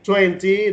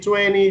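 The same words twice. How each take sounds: First: It is said with a British accent. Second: It is said with an American accent.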